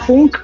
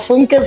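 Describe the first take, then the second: First: The name ends on a consonant sound. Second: The name ends with a final vowel sound. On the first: The speaker calls it right. "será Funk" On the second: The speaker calls it wrong. "pero yo digo Funke"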